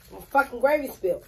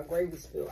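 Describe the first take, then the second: First: Louder and higher, fed-up venting over the spilled gravy; real irritation breaking through the calm; annoyed outburst. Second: Said in the usual way. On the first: Real, not acted. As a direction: blurt it out irritated. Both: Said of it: "Now I'm mad".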